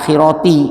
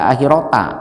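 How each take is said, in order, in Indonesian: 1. Kata ini diakhiri vokal i. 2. Kata ini diakhiri vokal a. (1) "Makanya dibaca akhirati" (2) "tidak dibaca akhirota"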